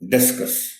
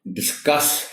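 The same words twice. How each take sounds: First: The stress is on the first syllable. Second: The stress is on the second syllable. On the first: It names the thrown disc in sport. The speaker calls it wrong. "डी पर stress के साथ, ये बिल्कुल एक और लफ्ज होता है" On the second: It means to talk something over. The speaker calls it right. "सी पर स्ट्रेस के साथ"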